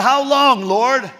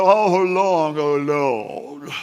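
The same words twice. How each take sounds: First: Louder and higher, frustrated and pushy; mock angry prayer. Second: A lightly voiced, overly holy lament; pious sigh. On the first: Preacher voicing David mad at God, angry demand. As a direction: demand it of God, half-joking. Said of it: "He's mad at God". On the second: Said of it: "You don't think he was like".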